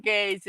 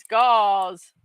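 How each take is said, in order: First: Gauze said as "gaze"; wrong pronunciation. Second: Gauze as "gawz"; corrected pronunciation. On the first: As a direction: say gauze with a long "ay" vowel. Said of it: "it is not gauze". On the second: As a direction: say gauze with an open "aw" vowel. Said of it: "it is not gauze. It's gauze". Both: Shown as a demonstration.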